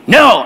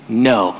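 First: It is said angrily. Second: It is said calmly.

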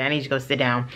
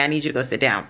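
First: It is said politely and gently. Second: It is said bluntly and harshly.

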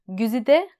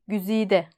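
First: The I vowel is short. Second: The I vowel is lengthened. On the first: The speaker calls it wrong. "Güzide değil" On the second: The speaker calls it right. "Güzide derken de İ'yi uzatıyoruz"

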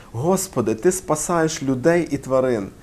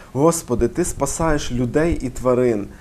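No difference in how they are said.

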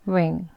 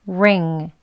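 First: The R is said lightly with little tension. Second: The R is said with strong tongue tension. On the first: "약하게 또 발음하면" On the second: "혀뿌리 많이 당기셔서"

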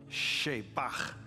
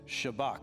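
First: The word ends in a throaty, raspy sound. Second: The word ends in a plain hard k sound. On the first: The speaker calls it right. "With phlegm at the end of it" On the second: The speaker calls it wrong.

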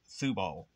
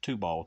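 First: The word begins with a TH sound. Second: The word begins with a plain T sound. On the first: This is the old way of saying it. "that was pronounced Thubal. Back in those days" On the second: This is the common way of saying it today. "most people pronounce it Tubal today"

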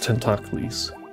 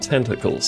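First: The word is pronounced in a grand, exotic way. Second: The word is pronounced in the ordinary way. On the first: The speaker calls it right. "You have to pronounce it like it's a Greek god" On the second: The speaker calls it wrong. "It's not tentacles"

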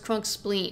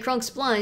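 First: The last syllable rhymes with 'green'. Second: The last syllable rhymes with 'line'. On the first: The speaker calls it right. "It's pronounced Crunk Spleen" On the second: The speaker calls it wrong. "Don't say Crunkspline, you're going to get in trouble"

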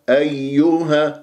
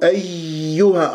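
First: Both y sounds are heard clearly as doubled. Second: The y is over-pressed with a lot of air. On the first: The speaker calls it right. "يا مشدد نبر، وأسمع الياءين" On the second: The speaker calls it wrong. "أضغط على المخرج كثير الياء فيتشوه الصوت، يطلع عندي هواء كثير"

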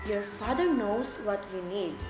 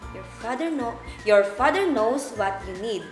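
First: It is spoken at a very low volume. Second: It is spoken at a normal volume. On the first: "a very low voice" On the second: "we're going to recite it in a normal voice"

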